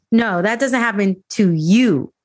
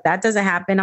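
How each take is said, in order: First: "you" punched with a rise and steep fall; stress on "you". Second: Said in the usual way. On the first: Retold or imitated. Correcting people who deny it, "you" strongly stressed. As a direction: land hard on the final "you".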